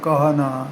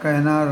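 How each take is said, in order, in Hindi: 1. पहला स्वर पूरी 'a' ध्वनि है। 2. पहला स्वर छोटी 'e' ध्वनि है। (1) "वर्ती उच्चारण के कहने वो कहते हैं कहना" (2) "हिंदी में मानक उच्चारण कहना"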